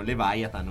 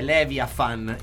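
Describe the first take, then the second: First: The word is pronounced the English way. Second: The word is pronounced the Russian way. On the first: "Gli inglesi e gli anglosassoni dicono Leviathan" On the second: "la pronuncia giusta è Leviathan in russo"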